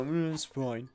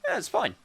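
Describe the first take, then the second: First: "Mm, it's fine" with a reluctant hum on "Mm" before it; grudging tone. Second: "Yeah, it's fine" lifted high and bright on "Yeah"; a cheery "Yeah" that says "Yeah, it's fine" is really okay; an easy, upbeat "Yeah, it's fine"; genuinely fine. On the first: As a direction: sound like "Mm, it's fine" means it's not fine. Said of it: "say it with the right intonation". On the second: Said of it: "say it that way". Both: Shown as a demonstration.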